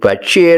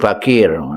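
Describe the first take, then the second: First: The middle consonant is a CH sound. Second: The middle consonant is a K sound.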